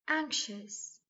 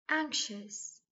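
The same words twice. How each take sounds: The two takes are said the same way.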